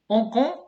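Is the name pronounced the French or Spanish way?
French. The name is pronounced the French way.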